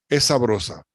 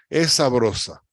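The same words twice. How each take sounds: No difference in how they are said.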